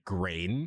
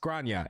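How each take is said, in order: First: "grain" as one English syllable, rhyming with rain; American English phonetics. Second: "Grania" in two syllables, GRAHN-yuh; Irish name pronunciation. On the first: Reader sounding out an Irish name by English spelling, phonetic "grain". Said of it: "read this with American English phonetics". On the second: Reader correcting the English reading, "Grania" said GRAHN-yuh. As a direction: say "Grania" with an ah and a ny sound. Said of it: "it's pronounced Grania and is Irish". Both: Shown as a demonstration.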